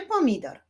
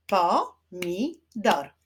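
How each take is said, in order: First: Said in the usual way. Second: "Pomidor" slow, as po, mi, dor; syllable by syllable. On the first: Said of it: "Wyklaszczmy sylaby w wyrazie". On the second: Shown as a demonstration. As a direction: clap out "Pomidor" in three separate beats. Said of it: "Wyklaszczmy sylaby". („Pomidor” powoli, sylabami: po, mi, dor)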